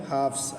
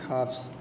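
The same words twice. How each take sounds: The two takes are said the same way.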